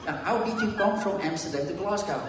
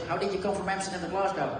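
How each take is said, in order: First: Higher, more spelled-out mock-Glaswegian question; imitated Glaswegian accent, repeated. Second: Quick, higher mock-Glaswegian question; imitated Glaswegian accent. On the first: Teammate repeating himself for baffled newcomer, deliberate imitated Glaswegian accent. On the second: Teammate quizzing the new Dutch arrival, imitated Glaswegian accent. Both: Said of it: "this is the Glaswegian accent".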